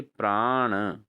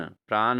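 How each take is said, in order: First: प्राण ending in retroflex n; correct pronunciation. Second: प्राण ending in plain dental n; wrong pronunciation. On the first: Teacher corrects students, प्राण with retroflex n. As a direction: curl the tongue for the end of प्राण. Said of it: "अणो होगा". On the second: Teacher shows students the error, प्राण with plain n. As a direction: say प्राण as "praan". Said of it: "नहीं". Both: Shown as a demonstration.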